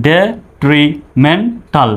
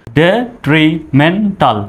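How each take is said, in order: First: Syllable by syllable, detrimental drawn out; slow broken-up demo. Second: detrimental said very slowly, syllable by syllable; slow broken-up demo. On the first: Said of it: "ভেঙে ভেঙে". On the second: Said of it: "সহজভাবে উচ্চারণ করুন ভেঙে ভেঙে". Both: Shown as a demonstration.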